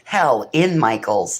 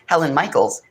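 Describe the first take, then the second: First: The words are said slowly and kept separate. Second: The words are run together quickly. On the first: The speaker is in hell at the Michaels store. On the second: It sounds like the name of a person.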